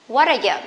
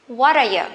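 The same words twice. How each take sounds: The two takes are said the same way.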